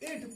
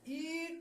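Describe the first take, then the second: First: The vowel is a short i sound. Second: The vowel is a long ee sound. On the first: The speaker calls it right. "यहां छोटी ई का उच्चारण किया जाएगा" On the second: The speaker calls it wrong. "ईट नहीं पढ़ा जाएगा"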